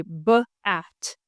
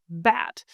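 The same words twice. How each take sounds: First: "B-at" split into two parts with a gap, B then at; teacher splitting "B-at" into its onset and rime; segmented sounds. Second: Said in the usual way. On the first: Shown as a demonstration. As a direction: sound out "B-at" piece by piece for a child. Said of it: "I would say". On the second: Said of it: "my daughter would look at me and go".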